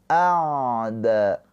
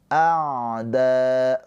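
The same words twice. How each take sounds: The two takes are said the same way.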